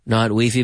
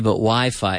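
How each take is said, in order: First: It is said with a Spanish pronunciation. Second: It is said with an English pronunciation. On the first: The speaker calls it wrong. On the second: The speaker calls it right. "in English, we say Wi-Fi"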